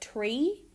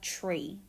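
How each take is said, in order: First: The tr is a plain t sound. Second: The tr sounds affricated, like chr. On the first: "instead of tree" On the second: "An increase in the affrication of tr"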